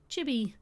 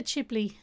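First: Chibi, the fixed word said with a falling close; corrected word. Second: Ghibli said first, the word she meant to replace; wrong word. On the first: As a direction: settle on Chibi as the right word. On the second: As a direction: say Ghibli, the studio name, before catching yourself. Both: Real, not acted. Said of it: "Ghibli or Chibi?".

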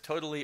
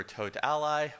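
First: "Totally" as the everyday word. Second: "Tot Ally" with "Ally" as its own word. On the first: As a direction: say "Totally" as one ordinary word. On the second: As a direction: say "Tot Ally" as two words. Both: Shown as a demonstration. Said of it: "don't actually know how they pronounce it".

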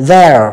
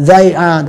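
First: "their" as one syllable, they're; single joined syllable, "their"; contracted form. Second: "They are" as two full words; both words of "They are" clearly sounded; full form. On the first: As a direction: squeeze "they are" into "their". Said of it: "đọc là". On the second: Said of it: "chúng ta đọc đầy đủ". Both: Shown as a demonstration.

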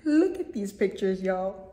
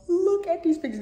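First: Said in the usual way. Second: "Look" hit higher and harder; excited repeat. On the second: Shown as a demonstration. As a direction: say "Look" up high with a push.

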